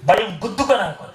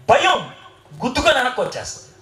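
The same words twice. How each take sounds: First: Said in the usual way. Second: Rattled off fast with a laugh. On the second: Shown as a demonstration. Preacher to congregation, quick and laughing. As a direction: toss it off quickly, amused. Preacher illustrates fear bouncing back.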